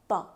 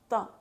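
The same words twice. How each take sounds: The two takes are said the same way.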